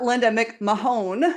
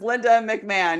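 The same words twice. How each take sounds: First: The surname is pronounced as its spelling suggests. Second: The surname is pronounced unlike its spelling suggests. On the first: The speaker calls it wrong. "it's not Linda McMahon. I know it looks like that spelled that way" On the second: The speaker calls it right. "It is Linda McMahon"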